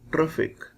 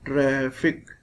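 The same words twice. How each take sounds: First: The vowel after the R is short. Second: The vowel after the R is long. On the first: The speaker calls it wrong. "We cannot read it traffic. It will be wrong" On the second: The speaker calls it right. "It will be traffic. ... Ra. There is long sound"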